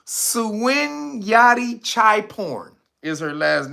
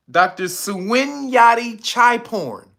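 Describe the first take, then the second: First: "Suwanyati Chai Porn" drawn out, each part stressed; slow name repeat. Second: "Suwanyati Chai Porn" said slowly, syllable by syllable; slow, careful read of "Doctor Suwanyati Chai Porn"; carefully sounded name. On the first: Repeating the doctor's name slowly for chat. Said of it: "Her whole last name". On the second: Reading the doctor's full name slowly to chat. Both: Shown as a demonstration.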